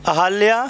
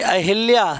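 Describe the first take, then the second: First: No vowel is heard between 'ah' and 'lya'. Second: A short 'i' is heard between 'ah' and 'lya'. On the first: The speaker calls it right. "अहल्या बिल्कुल शुद्ध है" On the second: The speaker calls it wrong. "हम लोग ज़्यादातर ये अहिल्या कहते हैं... wrong"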